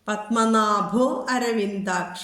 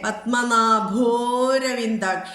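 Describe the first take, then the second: First: The words are separate, with the 'a' fully sounded. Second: The words merge, with a lengthened 'o' sound. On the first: Each word is kept whole. "പൂർണ്ണമായിട്ട് ഉച്ചരിച്ചോളൂ" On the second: It follows the joined sandhi form. "ഒരു മാത്ര നീട്ടി ഉച്ചരിക്കണം എന്നാണ് നിയമം"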